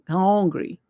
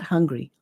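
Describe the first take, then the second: First: The first vowel is an 'oh' sound. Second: The first vowel is a plain 'uh' sound. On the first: The speaker calls it right. "hong with an O" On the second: The speaker calls it wrong. "Not hungry"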